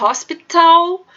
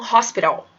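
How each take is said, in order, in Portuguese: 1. O T é pronunciado como um som de T claro. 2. O T é pronunciado como um som de R rápido. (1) "em vez de falar hospital" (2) "nos Estados Unidos eles falam hospital"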